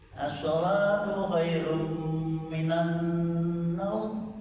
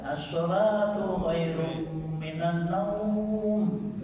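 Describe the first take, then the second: First: The vowel in the last word is kept short. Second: The vowel in the last word is drawn out long. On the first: This is how native speakers say it. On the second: This is how it is heard in local calls to prayer. "Orang Indonesia nak adzan naumnya panjang"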